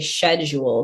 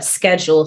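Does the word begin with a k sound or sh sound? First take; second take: sh sound; k sound. First: The word begins with a sh sound. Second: The word begins with a k sound. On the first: "same in the U K, you say schedule. So it's like a sh sound" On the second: "in the States it's pronounced k"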